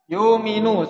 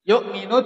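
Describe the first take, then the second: First: The glottal stop becomes a long vowel. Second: A glottal stop follows the first syllable.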